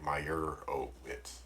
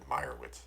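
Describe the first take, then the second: First: The 'o' syllable is clearly stressed. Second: The 'o' syllable is not stressed. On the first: The speaker calls it wrong. "accentuate the O. So it wasn't like Meyerowitz" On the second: The speaker calls it right. "They just said Meyerowitz"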